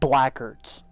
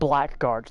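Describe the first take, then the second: First: The middle 'gu' sound is dropped. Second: The middle 'gu' sound is fully pronounced. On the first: The speaker calls it wrong. "They're cutting out the G U" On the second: The speaker calls it right. "They're not calling them Blackguards"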